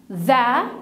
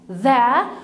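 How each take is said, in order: First: The vowel is a short 'uh' sound. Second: The vowel is a short 'uh' sound.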